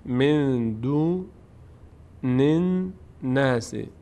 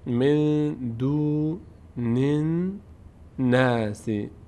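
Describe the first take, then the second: No difference in how they are said.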